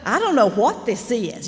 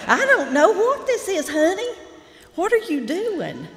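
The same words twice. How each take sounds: First: Said in the usual way. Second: Imitating Lee Smith. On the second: Writing teacher teasing her student over a story, high loud imitation. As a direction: send it way up and loud like a blunt teacher. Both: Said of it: "Y'all know Lee".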